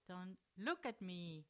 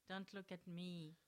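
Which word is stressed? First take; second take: look; none. First: The word look is stressed. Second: The word look carries no special stress.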